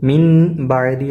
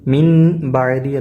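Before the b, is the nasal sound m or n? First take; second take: n; n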